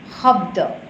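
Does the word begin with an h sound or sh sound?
h sound. The word begins with a plain h sound. This is the Assamese pronunciation. "in Assamese also they say habda"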